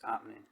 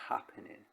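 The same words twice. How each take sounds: First: The word starts without any h sound. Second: The word starts with a clear h sound. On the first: "H's don't exist where we're from" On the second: "You don't say happening"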